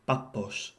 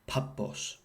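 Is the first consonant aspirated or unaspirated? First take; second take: unaspirated; aspirated. First: The first p has no puff of air. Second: The first p has a puff of air. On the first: The speaker calls it right. "not aspirated at the beginning of a word" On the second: The speaker calls it wrong. "and not"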